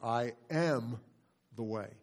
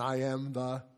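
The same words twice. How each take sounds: First: The stress falls on "am". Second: The stress falls on "way".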